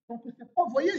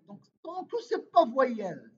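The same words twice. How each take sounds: First: Said in the usual way. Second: Slow, with pas pushed hard and a falling end; stress on pas. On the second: Shown as a demonstration. Teacher stressing the negation for students, slow and emphatic. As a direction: lean on the word "pas", drawn out and louder. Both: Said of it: "c'est ça les négations".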